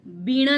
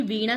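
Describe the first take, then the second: First: वीणा with a b, "beena"; higher, louder वीणा said as "beena"; wrong initial consonant. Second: वीणा with a v, "veena"; correct initial consonant. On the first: Teacher showing the mistake, वीणा as "beena". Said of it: "वीणा नहीं". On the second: Teacher giving the pure word, वीणा with a v. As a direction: say वीणा as "veena", not "beena". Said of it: "वीणा शुद्ध है". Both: Shown as a demonstration.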